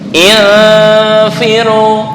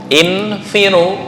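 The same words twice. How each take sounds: First: The n is fully concealed with no nasal hum. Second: The n is pronounced clearly and held long. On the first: "ini murni murni samar" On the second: "itu yang idhar yang dipanjangkan tadi"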